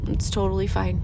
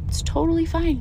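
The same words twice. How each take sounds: First: Low, gentle reassurance to yourself; calm self-talk. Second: Higher, lifted "totally" falling to "fine"; bright reassurance. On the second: Telling yourself your anger is fine, upbeat and higher. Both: Shown as a demonstration. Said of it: "Yeah, talk to yourself".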